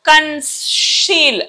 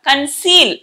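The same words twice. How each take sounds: First: The middle consonant is pronounced 'sh'. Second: The middle consonant is pronounced 's'. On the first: The speaker calls it wrong. "కానీ మనం కన్సీల్ అనట్లా" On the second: The speaker calls it right. "కన్సీల్ ఇది అంటున్నాం"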